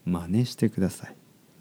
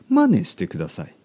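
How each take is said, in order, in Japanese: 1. 標準的な東京のイントネーションで言っています。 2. 非標準のイントネーションで言っています。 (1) "僕の話し方は東京のスタンダードのね、日本語のイントネーションです" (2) "真似してくださいじゃないですよ"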